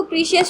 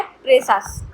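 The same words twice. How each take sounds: First: प्रीशियस in three syllables, "PREE-shi-yus"; alternative pronunciation. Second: प्रेसस in two syllables, "PRE-sus"; exact pronunciation. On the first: Teacher quoting some people's reading, प्रीशियस as "pree-shi-yus". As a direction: say प्रीशियस with long "ee" and "sh". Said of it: "कुछ लोग इसको प्रीशियस भी पढ़ते हैं". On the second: Teacher correcting to the exact form, प्रेसस as "pre-sus". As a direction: say प्रेसस with short "e", ending "-sus". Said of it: "लेकिन exact है प्रेसस". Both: Shown as a demonstration.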